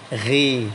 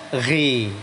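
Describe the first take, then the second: First: The syllable is said with a thin, light sound. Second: The same.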